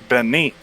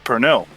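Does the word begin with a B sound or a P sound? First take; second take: B sound; P sound. First: The word begins with a B sound. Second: The word begins with a P sound.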